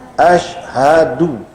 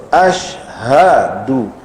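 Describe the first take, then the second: The two takes are said the same way.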